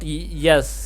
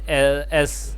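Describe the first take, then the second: First: The letter name starts with a y sound. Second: The letter name starts without a y sound. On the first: The speaker calls it wrong. "It is not yes" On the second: The speaker calls it right. "but S"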